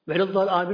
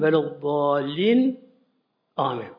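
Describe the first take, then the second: First: The two words run together with no pause. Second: A short breath-holding pause comes before 'amin'. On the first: The speaker calls it wrong. "Velallar amin olmaz" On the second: The speaker calls it right. "Bir nefes tutmak böyle, sekte"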